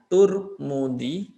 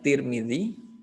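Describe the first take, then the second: First: The first two syllables have the vowels u and u. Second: The first two syllables have the vowels i and i. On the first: "di domah tak dengan memnya Turmudi" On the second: "diharokati harokat tak dengan mimnya Tirmidzi"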